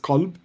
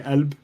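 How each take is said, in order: First: The word begins with a hard K sound. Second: The word begins with a glottal stop. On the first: This is the classical Arabic form. "the correct classical Arabic translation is is qalb with a hard K" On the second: This is the Levantine form. "in the Levant, where I'm from, it's a glottal stop"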